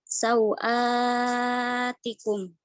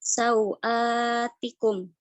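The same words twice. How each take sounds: First: The long vowel is held very long. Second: The long vowel is held medium length. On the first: "maka mad badal dibaca uh, tul" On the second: "maka mad badal boleh dibaca dengan uh, tawasud"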